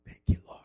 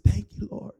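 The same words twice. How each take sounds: First: Breathless whispered thank you, Lord; whispered prayer. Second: Said in the usual way. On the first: Retold or imitated. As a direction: let the prayer sink into a whisper.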